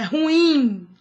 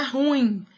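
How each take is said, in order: First: Ruim in two syllables, ru-IM, the end held; correct stress on IM. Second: Ruim run together as RUim, stress up front; wrong stress, one syllable. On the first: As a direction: stretch the IM of ruim. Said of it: "é ruim". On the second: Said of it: "não é ruim". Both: Shown as a demonstration.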